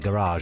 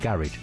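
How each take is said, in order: First: It is said in a posh pronunciation. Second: It is said in a plain, non-posh pronunciation. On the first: This is how posh people say it. "the posh people say garage" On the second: This is how the speaker himself says it. "it's just me that says garage"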